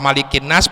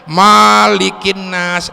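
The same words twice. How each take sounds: First: The first vowel of malikin is kept short. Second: The first vowel of malikin is drawn out long. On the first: The speaker calls it right. "malikin nas pendek" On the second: The speaker calls it wrong. "jangan dipanjangin ... nggak gaul"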